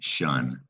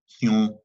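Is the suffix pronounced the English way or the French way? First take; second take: English; French. First: The suffix is said the English way, like 'shun'. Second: The suffix is said the French way. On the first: "It's pesky because it doesn't look anything like it sounds" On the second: "they pronounce it tion"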